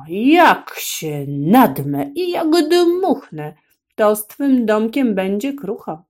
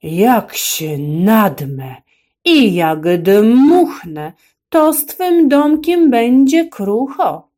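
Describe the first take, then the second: First: Slow, loud wolf roar, pitched up. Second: Slow, booming wolf roar rising higher. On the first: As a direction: bellow the threat at the pig. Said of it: "Bardzo głośno zaryczał". (wilk głośno ryczy groźbę) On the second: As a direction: roar the threat at the pig. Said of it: "Ryknął bardzo głośno". (wilk ryczy groźbę do świnki) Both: A narrator's reading.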